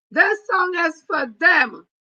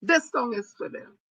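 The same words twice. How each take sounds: First: High, slow, loud dedication; defiant shout. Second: Said in the usual way. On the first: Real, not acted. Dedicating the song to her haters, slow defiant shout. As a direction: fling it at the haters.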